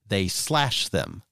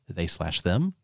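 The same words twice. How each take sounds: First: The stress falls on slash. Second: The stress is not on slash.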